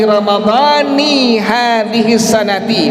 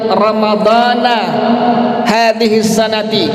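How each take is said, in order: First: Ramadhan ends in 'i', sanat ends in 'i'. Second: Ramadhan ends in 'a', sanat ends in 'i'. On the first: It clearly means the Ramadan of this year. The speaker calls it right. "maka maknanya aku berpuasa esok hari Ramadan tahun ini" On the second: It is unclear which year's Ramadan is meant. The speaker calls it wrong. "tidak dibaca dengan kalimat ramadhana hadhihi sanati"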